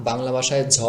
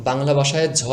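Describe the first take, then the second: Both takes have the same delivery.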